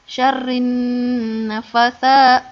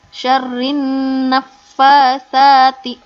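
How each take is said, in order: First: The f is single, said without doubling. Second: The f is doubled and the fa is long. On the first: The speaker calls it wrong. "Ada yang membaca begini, ... itu salah ya. Ingat di sini ada tasydid" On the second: The speaker calls it right. "ini dibacanya dari syariah"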